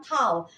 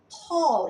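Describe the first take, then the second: First: "tall" with an open A vowel, like "tal"; mispronunciation demo. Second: "Tall" with a long O vowel, like "tol"; correct pronunciation. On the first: Teacher shows students what to avoid, "tall" said as "tal". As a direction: say "tall" with an A as in "pal". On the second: Teacher models the word for students, "Tall" with an O. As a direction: say "Tall" with a rounded O sound. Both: Shown as a demonstration. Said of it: "itu bacanya jangan tall".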